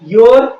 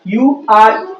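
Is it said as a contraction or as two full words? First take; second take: contraction; full words. First: It is said as one short contracted word. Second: It is said as two separate full words.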